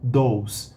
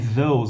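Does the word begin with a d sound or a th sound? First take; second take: d sound; th sound. First: It begins with a hard d sound. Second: It begins with a soft th sound.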